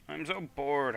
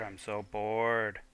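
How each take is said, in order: First: Said in the usual way. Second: Slow drawn-out "bored" sinking down; bored drawl. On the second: Acted. Character complaining of boredom, slow bored drawl. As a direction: stretch out "bored" like a sulking kid.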